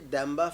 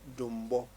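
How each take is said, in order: First: The middle has an m followed by b. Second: The first vowel is u and the last vowel is o. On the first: This is the Dagbani form of the name. "we say Damba Festival, that is in in in Dagbani" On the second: This is the Wala form of the name. "the Wala people will say Dumbo Festival"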